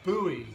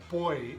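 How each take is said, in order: First: It is said in an American accent. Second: It is said in a British accent. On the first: "is often called buoy in uh, in American English" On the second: "the word that we call boy in English"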